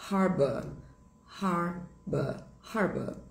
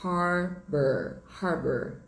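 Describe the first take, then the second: First: Teacher models British harbour; British pronunciation. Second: Harbor with a strong American r at the end; teacher models American harbor; American pronunciation. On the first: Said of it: "do inglês britânico fica". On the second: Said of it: "Em inglês americano". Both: Shown as a demonstration.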